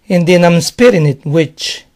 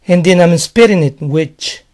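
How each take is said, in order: Both takes have the same delivery.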